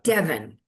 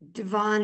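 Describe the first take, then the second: First: The name rhymes with heaven. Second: The name does not rhyme with heaven. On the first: It is the plain way the name is said. The speaker calls it right. "It's just Devon, like like heaven" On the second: It sounds too fancy for the name. The speaker calls it wrong. "way too ritzy"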